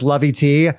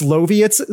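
First: The name ends with a separate tee sound. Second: The name ends like the word Soviet. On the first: The speaker calls it wrong. "I thought it was Lovey-T because it says Lovey-T" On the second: The speaker calls it right. "it's Loviot. So it said like Soviet with an L"

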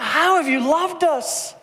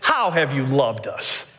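First: The question sounds sincerely curious. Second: The question sounds accusing and doubtful. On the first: The people genuinely want to know. "It's not" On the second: The people doubt they were loved at all. "It's ... That's the tone of the question"

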